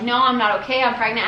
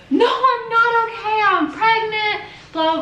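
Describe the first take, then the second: First: Said in the usual way. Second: High, slow, wailing mock sob; imitating hysterical sobbing. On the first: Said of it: "telling them". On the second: Retelling her answer to the police, high wailing mock sob. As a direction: wail it out like she's crying too hard to talk. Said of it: "at this point, I'm bawling, like, hysterically".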